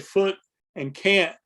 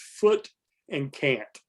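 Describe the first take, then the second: First: The tongue never touches for the final T. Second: The final T sounds are clearly articulated. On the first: "in my normal speech, ... the front of my tongue never goes up" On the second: "I went out of my way to pronounce them both with a T"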